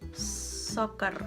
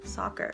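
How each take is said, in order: First: The R is rolled, Indonesian style. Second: The R is not rolled, North American style.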